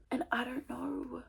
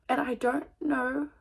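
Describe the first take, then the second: First: Slow, unvoiced, hushed; a soft, slow "and I don't know"; whispered. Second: Said in the usual way. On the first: Real, not acted. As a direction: breathe it out, defeated. Repeated, first hushed.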